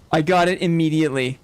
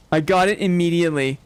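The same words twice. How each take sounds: The two takes are said the same way.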